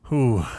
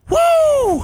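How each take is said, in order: First: It is a weak, timid woo. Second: It is a loud, energetic woo.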